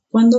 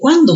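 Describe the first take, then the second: First: The word is said with weak emphasis. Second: The word is said with strong emphasis. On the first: It links two clauses about a time. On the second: It asks about a time.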